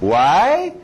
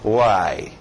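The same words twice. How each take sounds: First: The voice rises at the end. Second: The voice falls at the end.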